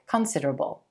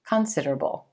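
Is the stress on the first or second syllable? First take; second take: first; first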